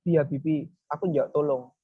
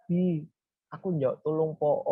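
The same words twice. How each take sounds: First: Toneless, matter-of-fact plea; flat request. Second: Expressive plea. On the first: Showing how not to ask someone for help, flat and uninvolved. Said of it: "Mosok ya datar-datar ae". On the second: Showing how to ask a friend for help, expressive pleading. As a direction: plead for help, stretching the last word. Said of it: "intonasinya, volumenya, jedanya itu ya pasti kita gunakan juga". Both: Shown as a demonstration.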